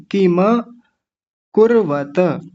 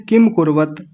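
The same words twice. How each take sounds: First: किम कुर्वत with full म and open final त; correct way. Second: किम कुर्वत with clipped half म and त; rushed किम कुर्वत as the mistake; wrong way shown. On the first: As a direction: give each final consonant its a. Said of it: "किम कुर्वत नहीं". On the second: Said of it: "क्या बोल देते हैं". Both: Shown as a demonstration.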